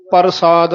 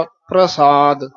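First: ਪ੍ਰਸਾਦ wrongly said par-saad, with a full r; full rara. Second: ਪ੍ਰਸਾਦ slowly as pra-saad; subjoined rara. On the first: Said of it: "ਰਾਰਾ ਬਰਾਬਰ ਦਾ ਬੋਲ ਜਾਂਦੇ ਹਾਂ". (ਪ੍ਰਸਾਦ ਵਿੱਚ ਪੂਰਾ ਰਾਰਾ ਬੋਲੋ) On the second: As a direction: join the r to the p in ਪ੍ਰਸਾਦ. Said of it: "ਚਰਨਾ ਚ ਰਾਰਾ". (ਪ੍ਰਸਾਦ ਵਿੱਚ ਰਾਰਾ ਪੈਰ ਵਿੱਚ) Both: Shown as a demonstration.

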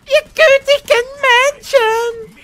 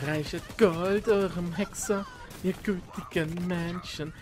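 First: Much higher, loud wailing plea; bard's wailing cry. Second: Slow, drawn-out bard's plea; bard imitation. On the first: Retold or imitated. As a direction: belt it like a desperate minstrel. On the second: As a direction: drag it out like a begging bard. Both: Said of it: "Das musst du auch, auch ganz machen".

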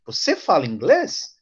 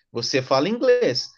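First: "Você fala inglês" asked, rising sharply on "inglês"; question intonation. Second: "Você fala inglês" as a plain affirmation, falling on "inglês"; statement intonation. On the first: Teacher shows students the change of intonation for asking, rising question. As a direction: lift the end of "inglês" into a question. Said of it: "Você vai mudar a entonação de voz". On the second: Teacher shows how it sounds without the question mark, falling statement intonation. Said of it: "seria uma afirmação". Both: Shown as a demonstration.

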